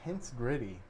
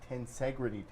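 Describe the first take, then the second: First: It sounds like the two words tense gritty. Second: It sounds like one word, ten-segrity. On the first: The speaker calls it wrong. "I was pronouncing this thing the tense gritty" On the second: The speaker calls it right. "Tim told me it's the tensegrity table"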